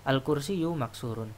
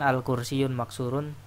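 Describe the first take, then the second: First: The first word ends without an n sound. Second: The first word ends with an added n sound. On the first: The speaker calls it right. "sudah ada alnya maka tidak boleh ada tanwinnya" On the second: The speaker calls it wrong. "Jangan al-kursiyun maksurun. Nah, itu kaidah yang salah"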